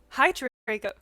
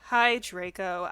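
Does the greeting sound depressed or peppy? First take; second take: peppy; depressed. First: The greeting is said brightly and cheerfully. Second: The greeting is said flatly and gloomily. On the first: "makes me want to read it in like a peppy voice" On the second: "I said in a depressed voice"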